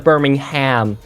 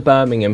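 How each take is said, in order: First: It is said with an American pronunciation. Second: It is said with a British pronunciation.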